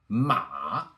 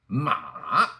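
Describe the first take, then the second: First: The syllable is said with the third tone. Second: The syllable is said with the third tone.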